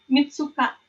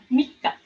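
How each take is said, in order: First: A full tsu syllable comes before the k. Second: The k is held long, with no tsu syllable. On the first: The speaker calls it wrong. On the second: The speaker calls it right. "bacanya ditebelin ya"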